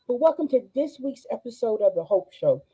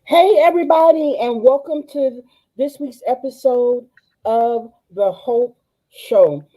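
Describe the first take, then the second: First: Said in the usual way. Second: Excited host greeting. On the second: Real, not acted. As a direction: welcome them in with big energy. Enthusiastic show opening.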